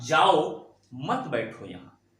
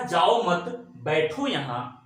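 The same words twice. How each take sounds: First: Slow "जाओ", pause, then "मत बैठो यहां" as one phrase; "जाओ" पर रुकें, फिर "मत बैठो यहां" साथ में; जाओ के बाद विराम. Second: "जाओ मत" एक साथ बोलकर रुकें, फिर "बैठो यहां"; slow, "जाओ मत" joined as one phrase, pause, then "बैठो यहां"; जाओ मत के बाद विराम. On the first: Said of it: "एक कामा की वजह से". ("मत" को "बैठो" से जोड़कर बोलें) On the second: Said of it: "यहां पे कामा है". ("मत" के बाद ठहराव, धीमे बोलें) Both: Shown as a demonstration.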